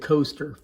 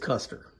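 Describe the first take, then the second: First: The first vowel sounds like 'coast'. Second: The first vowel sounds like 'cuss'. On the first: The speaker calls it wrong. "I said Coaster for years because I really had no idea" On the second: The speaker calls it right. "he said it's Custer, like General Custer"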